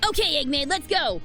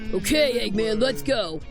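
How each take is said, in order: First: The voice is at its highest, least deep pitch. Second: The voice is pitched at its very lowest. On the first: The speaker calls it wrong. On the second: The speaker calls it right.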